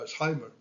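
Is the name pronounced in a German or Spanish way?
German. The name is pronounced with German sounds. "en alemán se pronuncia"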